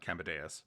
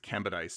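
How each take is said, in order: First: The name ends sounding like the word 'dais'. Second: The name ends in a short 'dis' sound. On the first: The speaker calls it wrong. "not Cambadeus. I thought it was like a dais" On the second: The speaker calls it right. "It's Cambadis"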